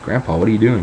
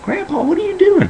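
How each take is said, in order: First: Said in the usual way. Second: Very high mock squeal of horror; shocked squeal. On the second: Grandson walking in on naked grandpa, mock shocked squeal.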